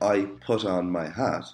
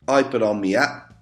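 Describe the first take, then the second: First: The T and H sounds are clearly pronounced. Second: The T and H sounds are dropped. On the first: "instead of saying" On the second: "they don't pronounce T's or H's"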